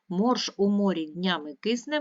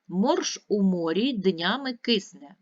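First: It is read at a quicker pace. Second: It is read at an ordinary, steady pace.

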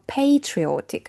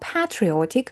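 First: The word is said with an American pronunciation. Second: The word is said with a British pronunciation. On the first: "в американській англійській ми говоримо patriotic" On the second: "в UK ми говоримо patriotic"

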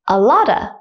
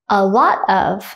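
First: The word 'of' shrinks to a schwa. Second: The word 'of' is said in full.

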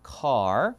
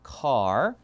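First: The r sound is pronounced. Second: The same.

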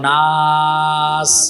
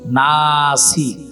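First: The word ends on the s sound. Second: The word ends with a short i vowel. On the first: The reading stops at this word. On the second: The reading goes on without stopping.

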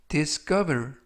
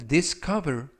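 No difference in how they are said.

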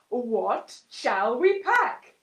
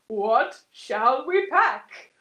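First: It is said in a deep voice. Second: The same.

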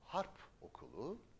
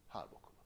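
First: The final consonant of harp stays hard. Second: The final consonant softens and links to okulu.

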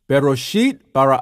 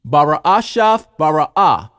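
First: The first word is pronounced 'bereshit'. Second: The first word is pronounced 'bara'ashaf'. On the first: This is the modern Hebrew reading. "this is how it sounds in modern Hebrew" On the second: This is the claimed ancient Hebrew reading. "those of us who speak the ancient Hebrew, we say it like this"

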